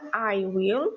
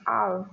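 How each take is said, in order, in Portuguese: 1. São ditas duas palavras separadas e completas. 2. As palavras são ligadas numa só sílaba. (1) "na forma longa" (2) "na forma contraída"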